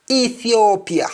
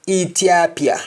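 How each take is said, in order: First: Said in the usual way. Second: Ethiopia with T for th, "Itiapia"; Jamaican pronunciation. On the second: Shown as a demonstration. Teacher showing Jamaican speech, Ethiopia with a hard T. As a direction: say Ethiopia as "ee-tee-AH-pia". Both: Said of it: "in Jamaican".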